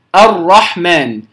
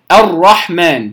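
Both takes have the same delivery.

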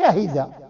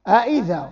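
First: The second hamza is an h sound. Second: The second hamza is a glottal stop. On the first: The speaker calls it wrong. "ما تقولش أهذا" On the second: The speaker calls it right. "أئذا ما تقولش"

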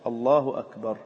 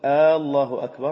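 First: It is said as a statement. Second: It is said as a question. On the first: It declares that God is greatest. The speaker calls it right. "بصيغة الخبر" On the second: It asks whether God is greatest. The speaker calls it wrong. "صرت مستفهما ولست مخبرا"

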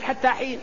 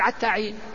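First: The first word starts with a ha sound. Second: The first word starts with an ayn sound. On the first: This is the standard form. "ويعرف الناس أنه يريد" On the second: This is the Hudhayl dialect form. "صاحب اللغة هذه يقول"

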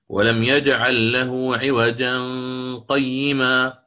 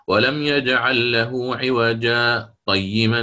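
First: عوجا runs straight into قيما without pause. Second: A brief breathless pause comes after عوجا. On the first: "أدرج يعني: ... دون سكت" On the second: "أقف سكتة لطيفة دون زمن يتنفس فيه عادة"

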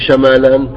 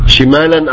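First: The first syllable has an 'a' vowel. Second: The first syllable has an 'i' vowel. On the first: "بفتح الشين" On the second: "بالكسر"

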